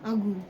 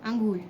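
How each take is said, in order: Both takes have the same delivery.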